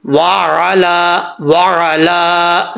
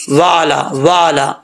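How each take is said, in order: First: Very slow वाला with a throat ain mid-word; wa, squeezed ain, then long "laa" in वाला; correct ain. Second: वाला short, with the ain lost; hamza mistake. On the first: Teacher correcting the mistake, drawn-out recitation. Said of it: "ऐसा नहीं पढ़ना". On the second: Teacher showing people's mistake, ain dropped. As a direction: say वाला quickly and smoothly, no throat catch. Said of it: "आइन को हमज़ा पढ़ जाते हैं". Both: Shown as a demonstration.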